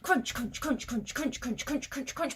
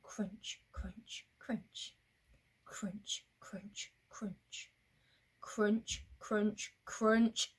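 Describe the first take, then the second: First: Rapid, rhythmic CRUNCH after CRUNCH; quick crunching. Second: Soft, evenly spaced CRUNCH each time; careful, measured footsteps in sound; steady pace crunching. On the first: Getting away from Snake quickly, rapid crunching. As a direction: rattle off each crunch like hurried footsteps. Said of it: "We're gonna crunch quicker this time". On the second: Walking on at a steady pace, measured crunching. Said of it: "at a steady pace". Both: Shown as a demonstration.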